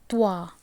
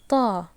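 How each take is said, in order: First: A w glide follows the t before the vowel. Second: The t goes straight into the vowel. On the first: The speaker calls it wrong. "then you are tend to add the wow sound" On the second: The speaker calls it right. "you must just tell this as saw, ta"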